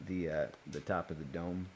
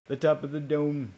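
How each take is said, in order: First: Said in the usual way. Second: 'The top of the dome' repeated higher and louder, 'top' hit; stress on 'top'. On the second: Real, not acted.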